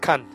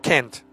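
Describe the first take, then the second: First: It is said with a British accent. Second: It is said with an American accent. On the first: "depending on whether you pronounce it in a British way" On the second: "or an American way"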